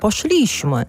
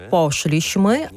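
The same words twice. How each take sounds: First: «пошліśmy» stressed on the second-to-last syllable, higher pitch there; teacher showing the mistake; wrong stress. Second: «пошліśmy» stressed on the first syllable, po-SZLI-śmy third from end; teacher showing the right stress; correct stress. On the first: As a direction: show the common wrong stress. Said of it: "а не". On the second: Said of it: "Наприклад". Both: Shown as a demonstration.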